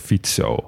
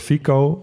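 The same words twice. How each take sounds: First: The c sounds like ts. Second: The c sounds like a k. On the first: This is how it is said in Slovak. The speaker calls it right. "een C in het Slovaak spreek je uit als TS" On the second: This is how Dutch speakers would say it. The speaker calls it wrong. "Want zo zouden wij het gewoon uitspreken"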